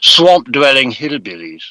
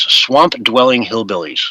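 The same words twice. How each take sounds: First: It is said in an imitated British accent. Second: It is said in the speaker's ordinary American accent.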